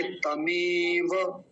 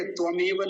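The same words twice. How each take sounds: First: तमेव as ta-meee-va, drawn out; correct ta start. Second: त्वमेव quickly, opening with "tva"; mistaken tva start. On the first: Teacher showing how it must be said, slow demo. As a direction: hold the long e in तमेव, plain t. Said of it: "तमेव ऐसा बोलना है". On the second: Teacher warning against the mistake, quick "tva" demo. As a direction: add a v after the t in त्वमेव. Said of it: "त्वमेव नहीं बोलेंगे". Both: Shown as a demonstration.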